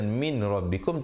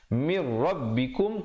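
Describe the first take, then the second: First: The n sound is kept before the r. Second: The n sound merges fully into the r. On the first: The speaker calls it wrong. "Bukan min rabbikum" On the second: The speaker calls it right. "tapi mir rabbikum"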